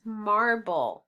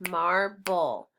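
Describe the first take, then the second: First: Said in the usual way. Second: "Marble" in two beats, mar, then bull; snapped-out syllables of "Marble"; split into syllables. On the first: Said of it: "This word is marble". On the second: Shown as a demonstration. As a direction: break "Marble" apart with a short gap between syllables. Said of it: "Let's snap it".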